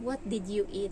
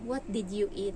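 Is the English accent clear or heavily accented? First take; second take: clear; clear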